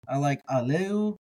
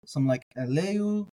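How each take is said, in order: First: Aleu starting with an open a; aleph as a. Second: Eleu starting with an e sound; aleph silent e. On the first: Teacher gives his preferred aleph vowel. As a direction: begin aleu on a clear ah. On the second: Teacher gives the silent-aleph alternative. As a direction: begin eleu on eh. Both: Shown as a demonstration.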